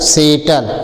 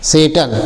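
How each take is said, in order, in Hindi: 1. यह शब्द s ध्वनि से शुरू होता है। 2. यह शब्द s ध्वनि से शुरू होता है।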